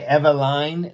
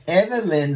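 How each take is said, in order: First: The last syllable has a long i sound. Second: The last syllable has a short i sound. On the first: The speaker calls it wrong. "Second try I. Eveline. No, she doesn't like her name Eveline" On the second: The speaker calls it right. "First try I. Evelyn sounds good"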